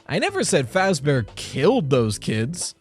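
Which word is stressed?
killed. The stress is on the word killed.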